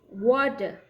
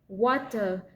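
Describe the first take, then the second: First: The middle consonant is a soft d sound. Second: The middle consonant is a crisp t sound.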